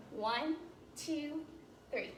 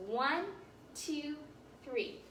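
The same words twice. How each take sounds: The two takes are said the same way.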